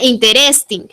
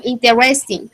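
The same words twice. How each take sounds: First: "interesting" with a strong tapped Spanish R. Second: "interesting" with a soft, light English R. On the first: Teacher shows the wrong way, hard Spanish R. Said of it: "No suena interesting". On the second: Teacher models "interesting" for a student, soft R. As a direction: say "interesting" without rolling the R. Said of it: "suena mucho más, eh, suave". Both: Shown as a demonstration.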